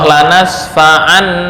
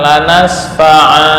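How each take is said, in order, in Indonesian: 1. Frasa ini berakhir dengan bunyi n. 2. Frasa ini berakhir dengan vokal panjang. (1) "Nun saat wasol" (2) "mau wakofkan adalah lanas fa'a"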